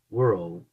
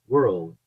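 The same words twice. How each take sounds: First: "World" lower, the R alone stressed; English r demo. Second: "world" with the English R, slightly slow; English r demo. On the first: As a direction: repeat "World", isolating the R sound. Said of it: "Esse som do r". ("World" repetido, focando no som do R) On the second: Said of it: "se pronuncia world". ("world" com o R do inglês) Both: Shown as a demonstration.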